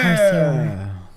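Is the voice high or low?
high. It is said in a high, happy voice.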